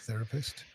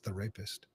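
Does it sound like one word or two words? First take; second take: one word; two words. First: It is said as one word, normally stressed. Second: It is split in two with shifted emphasis. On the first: A counsellor who treats people. The speaker calls it right. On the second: The speaker calls it wrong.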